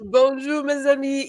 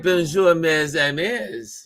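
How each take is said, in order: First: Correct French greeting. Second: Retold French greeting. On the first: Shown as a demonstration. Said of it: "did I say it right". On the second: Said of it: "But she said".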